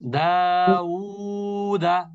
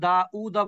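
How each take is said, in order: First: The vowels glide together through rounded lips. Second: A glottal catch splits the word before 'u'. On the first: The speaker calls it right. "উ আর উ এক জিনিস না কিন্তু" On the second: The speaker calls it wrong. "আর কেউ কেউ আবার দা উদা বলবেন না"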